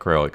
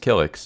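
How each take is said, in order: First: The name starts with a kr sound. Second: The name starts with a plain k sound. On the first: The speaker calls it wrong. "I'm pronouncing the name wrong" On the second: The speaker calls it right. "it's actually Killix"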